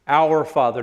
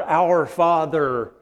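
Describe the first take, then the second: First: Said in the usual way. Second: Our Father slow, leaning on our; slow, stressed our. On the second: Shown as a demonstration. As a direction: draw out our Father, weight on our. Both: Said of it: "not my Father".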